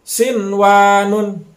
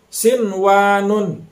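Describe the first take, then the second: The two takes are said the same way.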